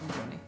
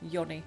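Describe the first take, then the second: First: The name begins with a J sound. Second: The name begins with a Y sound. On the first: The speaker calls it wrong. "it's not pronounced the same way" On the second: The speaker calls it right. "We pronounce it as Yi"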